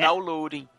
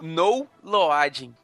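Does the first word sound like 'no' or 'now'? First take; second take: now; no. First: The first word sounds like 'now'. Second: The first word sounds like 'no'. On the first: The speaker calls it right. "é assim que se pronuncia isso" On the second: The speaker calls it wrong. "eu falei tudo errado"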